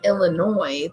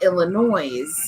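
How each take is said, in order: First: The final S is silent. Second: The final S is pronounced. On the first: "they don't say Illinois" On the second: "because here you pronounce the S"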